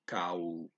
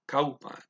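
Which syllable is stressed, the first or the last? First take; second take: last; first. First: The stress is on the last syllable. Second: The stress is on the first syllable. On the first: The speaker calls it wrong. "I'm stressing the last syllable. It's not how you say it" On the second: The speaker calls it right. "you always stress the first syllable of a word"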